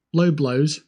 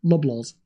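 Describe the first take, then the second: First: "Low blows" as two separate words, loh blohz. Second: "Loblaws" as one name, short first vowel, lub-lawz. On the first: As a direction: say "Low blows" like the punch, both words with a long o. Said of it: "Is it low blows, as in, like, a punch". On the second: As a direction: run "Loblaws" together as the shop name. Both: Shown as a demonstration.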